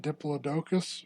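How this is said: It is said in a British pronunciation.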